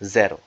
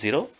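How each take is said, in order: First: It is pronounced the Polish way. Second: It is pronounced the English way. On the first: The speaker calls it right. "it is called as zero" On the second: The speaker calls it wrong. "Zero is not called as zero"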